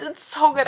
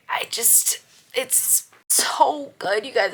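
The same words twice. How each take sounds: First: Higher, louder gushing; excited exclaim. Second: Slow, breathless whisper of awe; slow awestruck whisper; gushing whisper. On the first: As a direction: burst out with delight. Same words, now exclaimed. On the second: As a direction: whisper it slowly like a secret. Gushing about the series. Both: Acted.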